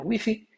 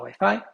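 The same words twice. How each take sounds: First: It is pronounced the Spanish way. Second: It is pronounced the Brazilian Portuguese way. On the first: "na Espanha, Wi-Fi" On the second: "Em português, no Brasil, a gente fala Wi-Fi"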